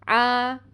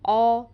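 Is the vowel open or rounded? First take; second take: open; rounded. First: The vowel is open, like 'aa'. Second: The vowel is rounded, like 'aw'. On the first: The speaker calls it right. "इसलिए मुँह को खोलें" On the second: The speaker calls it wrong. "जब आप बंद करेंगे तो ऐसी आवाज़ आएगी"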